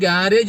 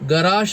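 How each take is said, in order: First: It is said the common Malayalam way. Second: It is said the original foreign way. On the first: The speaker calls it wrong. "മലയാളത്തിലേക്ക് വന്നു കഴിഞ്ഞപ്പോഴേക്ക് അത് ഗാരേജ് ആക്കി മാറ്റിയത്" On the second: The speaker calls it right. "ഗാരേജിൻ്റെ ശരിയായ ഉച്ചാരണം ഗറാഷ് എന്നാണ്"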